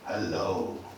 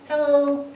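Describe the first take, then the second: First: The voice is low and deep like a man. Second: The voice is high and squeaky like a cartoon. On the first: "a very male" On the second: "in um, Chip and Dale tone like this"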